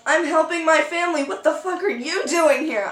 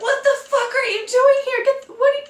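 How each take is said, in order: First: Higher voice, throwing "you" back; indignant retort. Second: Very high, incredulous sputter; shocked squeal. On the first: Ex-boyfriend answers her shocked question, indignant retort. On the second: Dreamer confronts her ex-boyfriend in the debris, shocked squeal. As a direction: squeal it, tripping over the words. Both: Retold or imitated.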